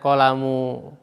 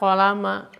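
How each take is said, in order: First: The word ends with the vowel u. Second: The word ends with the vowel a. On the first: The speaker calls it wrong. "Tidak boleh kita membacanya" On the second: The speaker calls it right. "kita harus membacanya fathah"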